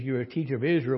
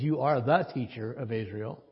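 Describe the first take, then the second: First: Said in the usual way. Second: "the" lifted and stressed, the one and only teacher. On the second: Shown as a demonstration. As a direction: lean on "the" with a rising tune. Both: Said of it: "but the Greek is more emphatic".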